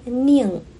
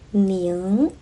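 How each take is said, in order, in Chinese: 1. 这个音节读降调。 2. 这个音节读升调。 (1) "一个是第四声宁" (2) "一个是第二声宁"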